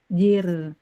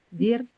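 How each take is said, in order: First: The final consonant is between held and flowing. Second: The final consonant is cut short and held. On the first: "Roknya tipis, tawasud" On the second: "Kalau tertahan"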